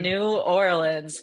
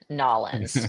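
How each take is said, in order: First: The name is said in full, each part clear. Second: The name is run together into a clipped form. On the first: This is how locals say it. The speaker calls it right. "They say New Orleans" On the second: This is not how locals say it. The speaker calls it wrong. "people in New Orleans do not say Nolans"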